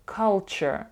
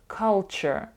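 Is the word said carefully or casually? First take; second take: carefully; carefully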